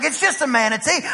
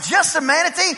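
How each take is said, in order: First: Said in the usual way. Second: Higher-pitched indignant disbelief; incredulous echo. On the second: Retold or imitated. East Texan answering onlookers, incredulous and higher. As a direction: throw JUST A MANATEE back as a question.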